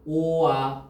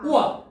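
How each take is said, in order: First: The two vowels are said slowly and separately. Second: The two vowels are said quickly, blending together. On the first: "천천히 발음하면" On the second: "빨리 발음하면"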